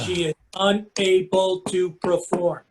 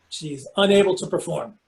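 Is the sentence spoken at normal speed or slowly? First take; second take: slowly; normal. First: It is spoken very slowly. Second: It is spoken at an ordinary speed.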